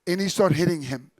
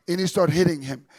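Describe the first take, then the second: No difference in how they are said.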